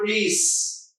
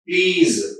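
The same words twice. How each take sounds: First: The word ends in a hissing s sound. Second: The word ends in a buzzing z sound. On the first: The speaker calls it wrong. "not please" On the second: The speaker calls it right. "please, za"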